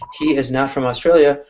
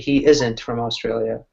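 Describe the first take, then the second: First: The words 'is not' are said in full. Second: The words 'is not' are contracted to 'isn't'.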